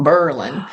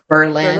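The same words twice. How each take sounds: First: The stress is on the first syllable. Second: The stress is on the second syllable. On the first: This is the pronunciation changed during World War One. "the accent was on the first um, syllable" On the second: This is the older pronunciation of the town's name. "which used to be called"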